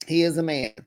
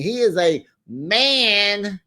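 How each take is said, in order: First: Said in the usual way. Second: IS drawn out slow and emphatic; he IS a man, stretched; stress on is. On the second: Shown as a demonstration. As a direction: lean hard on the word is, slowly.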